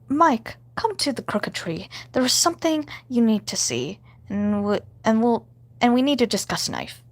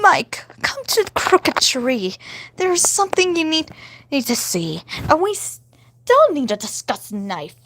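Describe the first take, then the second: First: It is said in the speaker's own voice. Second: It is said in a put-on Stella voice.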